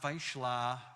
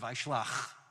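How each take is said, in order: First: The word ends without a final 'ch' sound. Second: The word ends with a throaty 'ch' sound. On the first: The speaker calls it wrong. "it's not Vaishla" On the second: The speaker calls it right. "with the ch at the end"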